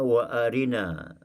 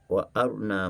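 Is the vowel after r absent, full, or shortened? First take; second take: full; absent. First: The vowel after r is fully pronounced. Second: The vowel after r is left out. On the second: "dengan bacaan izhar"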